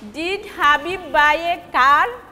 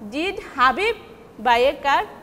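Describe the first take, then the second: First: The stress is on car. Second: The stress is on Habib.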